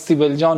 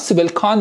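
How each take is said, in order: First: The second word begins with a J sound. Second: The second word begins with a hard K sound. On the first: The speaker calls it right. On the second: The speaker calls it wrong.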